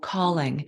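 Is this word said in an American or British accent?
American. It is said with an American accent. "calling in American"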